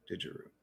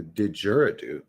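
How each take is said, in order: First: "Didgeridoo" said as "didgeroo"; mispronounced. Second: "didgeridoo" in full, "didger-uh-doo"; corrected pronunciation. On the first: Streamer trying to spell it, "Didgeridoo" mispronounced as "didgeroo". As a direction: drop the "do" from "Didgeridoo", ending "-eroo". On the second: Streamer fixing the word, "didgeridoo" with every syllable. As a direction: sound out the final "doo" in "didgeridoo". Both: Real, not acted. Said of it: "I'm saying this shit all fucked up".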